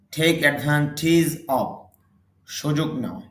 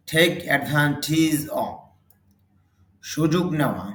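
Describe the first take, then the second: No difference in how they are said.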